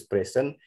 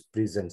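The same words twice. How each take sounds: First: "present" as PREH-sen; first pronunciation. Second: "present" as pri-ZEN; second pronunciation. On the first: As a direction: say "present" like the noun for a gift. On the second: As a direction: say "present" like the verb, buzzed z. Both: Shown as a demonstration. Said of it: "when we use present".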